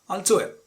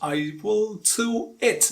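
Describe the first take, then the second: First: The word will is contracted to a weak form. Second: The word will is said in full. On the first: The speaker calls it right. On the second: The speaker calls it wrong. "No, you don't have to say like that"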